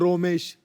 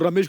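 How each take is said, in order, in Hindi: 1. पहला स्वर 'o' की तरह गोल है। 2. पहला स्वर एक खुला 'a' ध्वनि है।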